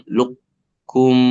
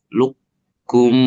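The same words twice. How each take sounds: No difference in how they are said.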